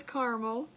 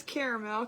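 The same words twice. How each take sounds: First: Caramel as CAR-mul, no middle A; viewer's two-syllable caramel. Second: Caramel as CARE-a-mel, middle A sounded; viewer's three-syllable caramel. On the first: Host reading a viewer's vote, caramel as CAR-mul. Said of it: "Ricky says caramel". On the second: Host reading a viewer's vote, caramel as CARE-a-mel. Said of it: "Denise says caramel". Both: Retold or imitated.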